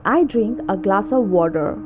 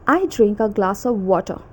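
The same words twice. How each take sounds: First: Attempted American accent, full r ending "water"; American rhotic "water". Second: Attempted British accent, no r at the end of "water"; British r-less "water". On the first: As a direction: say it American-style, sounding the r in "water". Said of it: "and American accent". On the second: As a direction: say it British-style, "water" ending in uh. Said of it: "difference between British accent". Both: Shown as a demonstration.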